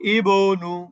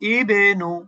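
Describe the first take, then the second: First: The b sound stops flat without an echo. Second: The b sound bounces with a downward echo. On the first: The speaker calls it wrong. "আপনি কিন্তু এভাবে বলবেন না" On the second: The speaker calls it right. "বায়ের কলকলাটা কিন্তু নিচের দিকে যাবে"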